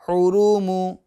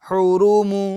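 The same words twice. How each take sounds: The two takes are said the same way.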